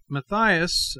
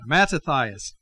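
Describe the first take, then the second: First: The name is said with three syllables. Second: The name is said with four syllables. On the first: The speaker calls it wrong. "I have been shortening it" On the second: The speaker calls it right. "Mattathias is a proper pronunciation"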